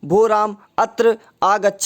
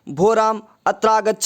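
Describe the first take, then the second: First: The two words are said as separate words. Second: The two words merge into one joined word. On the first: "संधि विच्छेद करके बोलना चाहे" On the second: "संधि सहित बोलना चाहे"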